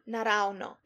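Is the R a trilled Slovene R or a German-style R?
trilled. It uses the standard Slovene trilled R.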